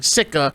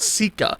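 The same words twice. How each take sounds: First: The name sounds like the word 'sicker'. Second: The name does not sound like 'sicker'. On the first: The speaker calls it wrong. "I was saying Sika, uh, like sicker than your average" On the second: The speaker calls it right. "I believe it's pronounced Sika"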